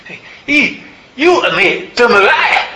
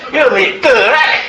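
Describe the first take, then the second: First: High, loud, badly faked Glaswegian; hammed-up Glasgow woman, pitched way up; a put-on Scottish lilt, openly bad; terrible Glasgow accent. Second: High, loud mock Glaswegian with a laugh through it; laughing through a badly faked Scottish accent; Glasgow accent, laughing. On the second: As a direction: redo the bad Glasgow accent while cracking up. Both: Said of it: "in an accent which I'll do, but it's terrible".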